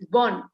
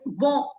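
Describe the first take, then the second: First: It ends with a clearly pronounced n sound. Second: It ends in a nasal vowel without n. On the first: The word is in its feminine form. "the feminine, the n is very uh, strongly pronounced" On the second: The word is in its masculine form. "the sound of bon is almost like an uh sound. It's not a n sound"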